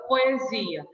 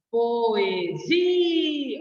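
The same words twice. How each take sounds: First: Said in the usual way. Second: Poesia, drawn out with the zi syllable louder and stretched; stress on the syllable zi. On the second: Shown as a demonstration. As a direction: say Poesia slowly, leaning hard on the zi syllable. (Poesia, com ênfase forte e alongada na sílaba zi) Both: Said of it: "o zi é o mais forte".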